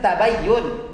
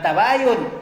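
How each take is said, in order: First: The middle y sound is doubled and held. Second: The middle y sound is short and single. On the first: The speaker calls it right. "Yang benar itu tabayyun. Jangan salah ucap" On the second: The speaker calls it wrong. "bukan tabayun"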